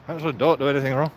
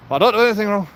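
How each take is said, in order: First: Said in the usual way. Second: Higher and louder, punching don't; emphatic insistence. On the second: Real, not acted. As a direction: protest your innocence. Insisting he does nothing wrong.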